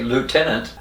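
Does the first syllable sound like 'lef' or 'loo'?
loo. The first syllable sounds like loo. "We say lieutenant"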